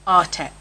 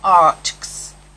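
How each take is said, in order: First: The ending is said as the letter name ex. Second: The ending is said as a bare ks sound. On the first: This is how most people say it. "they say art and then X" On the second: This follows the spelling by phonics. "As somebody who used to teach phonics"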